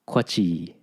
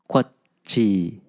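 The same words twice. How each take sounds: First: The word flows with no break in the middle. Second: The word has a clear break in the middle. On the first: The speaker calls it wrong. "without that pause in the middle" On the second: The speaker calls it right. "to overemphasize it right here"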